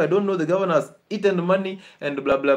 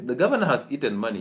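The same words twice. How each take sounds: First: Raised, exasperated mock of the mother griping; imitating the mother's complaint about the governor; complaining mother. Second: Quick, dismissive repeat of "the governor has eaten money"; doctor echoing the mother's excuse with doubt; dry sceptical echo. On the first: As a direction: whine it like a patient blaming everyone. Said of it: "she's actually saying". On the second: Retold or imitated. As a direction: toss her excuse back at her fast. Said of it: "I'm like".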